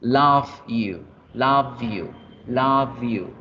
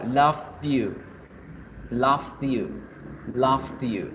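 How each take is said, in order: First: "love you" with V gliding straight into "you"; present-tense pronunciation. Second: "love you" as "lovd-yu", a stop before "you"; past-tense pronunciation. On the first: Teacher contrasting present with past, emphatic present-tense pronunciation. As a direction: say "love you" linked as "lov-yu", no D. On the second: Teacher contrasting past with present, careful past-tense pronunciation. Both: Shown as a demonstration.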